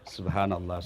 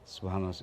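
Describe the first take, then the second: First: It is said slowly and carefully. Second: It is said quickly and carelessly.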